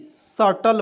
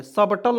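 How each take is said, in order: First: सटल said slowly, no B before T; silent B. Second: सबटल with B pronounced before T; wrong pronunciation, B sounded. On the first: Teacher shows learners slow सटल with silent B. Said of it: "पढ़ेंगे". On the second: Teacher shows the reading to avoid, सबटल with B sounded. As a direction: let the B be heard in सबटल. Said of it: "सबटल नहीं पढ़ेंगे". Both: Shown as a demonstration.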